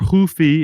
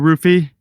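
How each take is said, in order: First: The name begins with an H sound. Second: The name begins with an R sound.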